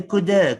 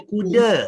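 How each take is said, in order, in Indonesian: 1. Bunyi d-nya lembut dan kedengaran sedikit cadel. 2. Bunyi d-nya tegas dan biasa. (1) "Dia baca kuda" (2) "dia tak ada baca kuda"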